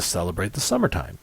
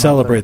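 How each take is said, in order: First: The pitch goes up in a lively, entertaining way. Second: The pitch stays level in a plain, factual way. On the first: It sounds entertaining rather than factual. The speaker calls it wrong. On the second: It sounds like a plain factual statement. The speaker calls it right.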